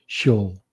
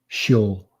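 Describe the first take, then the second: No difference in how they are said.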